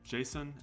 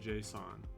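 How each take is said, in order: First: It sounds like the personal name Jason. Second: It does not sound like the name Jason. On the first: This is the way its creator intended it. "JSON as the name, and that's the way he intended it" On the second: This is how many other people say it. "a lot of people do say JSON"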